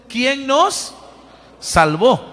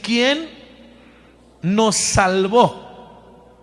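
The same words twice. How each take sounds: First: Louder, reading aloud together. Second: Said in the usual way. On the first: Shown as a demonstration. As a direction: lead the congregation reading it loudly. (lectura en voz alta y fuerte) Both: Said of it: "lo leemos fuerte".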